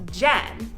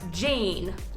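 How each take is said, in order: First: The vowel sounds like the start of Jennifer. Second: The vowel rhymes with the word pain. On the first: The speaker calls it right. "But it's actually pronounced Jen, as if it were like Jennifer" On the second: The speaker calls it wrong. "so you would think it's pronounced Jane, like pain"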